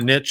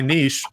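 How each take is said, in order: First: The word is said the Oklahoma way. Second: The word is said the non-Oklahoma way.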